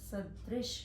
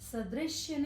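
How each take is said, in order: First: The word ends with a plain 'sh' sound. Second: The word ends with a 'shya' sound. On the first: The speaker calls it right. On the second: The speaker calls it wrong.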